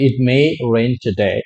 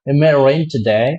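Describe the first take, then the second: First: Every sound in the phrase is said. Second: A sound in the phrase is dropped. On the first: "আমরা বলি" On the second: "আরো short করা সম্ভব"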